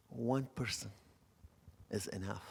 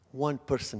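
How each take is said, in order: First: Soft voice of God. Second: Said in the usual way. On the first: Retold or imitated. God reassures the preacher, soft and hushed. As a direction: let "One person" fall softly, then breathe "is enough". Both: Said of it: "I hear God's voice".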